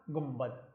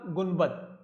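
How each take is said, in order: First: गुम्बद said with a clear m before b, as gumbad; read with m. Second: गुम्बद said letter by letter with n, as gunbad; spelled with n. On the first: Teacher shows students how गुम्बद is read, gumbad with m. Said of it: "लेकिन पढ़ा जाएगा". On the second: Teacher shows students how गुम्बद is spelled, gunbad with n. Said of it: "लिखा जाएगा". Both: Shown as a demonstration.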